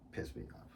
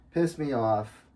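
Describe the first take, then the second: First: Breathy unvoiced whisper of pissed me off. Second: Said in the usual way. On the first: Shown as a demonstration. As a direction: whisper it to yourself.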